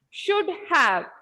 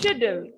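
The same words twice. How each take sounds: First: Two separate full words are said. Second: It is said as one contracted form.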